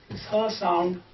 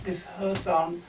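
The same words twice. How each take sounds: The two takes are said the same way.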